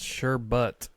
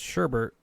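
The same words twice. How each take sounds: First: The second syllable has no R sound. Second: The second syllable has an added R sound. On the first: "pronounced sherbet" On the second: "with an additional R in the second syllable and pronounced sherbet"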